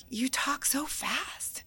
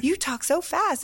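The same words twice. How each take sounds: First: Slow, whispered imitation of a Louisianan; a soft, slow mock of a Southerner; mock whispered remark. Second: Slower, higher, spoken aloud; lightly mocked Louisianan, voiced aloud; mock Southern remark. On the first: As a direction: breathe it slowly like a drawling local. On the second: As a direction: say it up high and drawn out. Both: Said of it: "people would be like".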